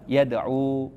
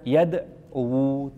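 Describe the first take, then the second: First: The word ends in a plain long u. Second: The final w carries an extra u vowel. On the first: The speaker calls it right. "Cukup dibacanya apa? Yad'u. Wawunya tidak diberi harokat dhammah" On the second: The speaker calls it wrong. "Jadi nggak bisa dibaca yad'u, tidak"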